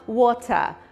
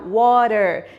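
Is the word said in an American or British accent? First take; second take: British; American. First: The word ends with no r sound. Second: The word ends with an r sound. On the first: "enquanto que um britânico fala water" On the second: "um americano fala r no final"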